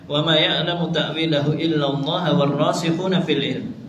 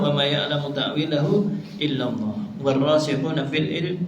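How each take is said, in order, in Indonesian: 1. Bacaannya terus tanpa jeda setelah illallah. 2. Ada jeda tepat setelah illallah. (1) "bisa dibaca dengan" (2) "Wakaf yang kedua"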